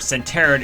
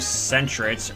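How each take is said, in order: First: The name is said with three syllables. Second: The name is said with two syllables. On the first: "I always pronounce Sentret as Centeret" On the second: "the proper pronunciation"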